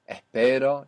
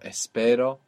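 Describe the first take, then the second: First: The S is aspirated, like a breathy h. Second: The S is pronounced as a full hiss.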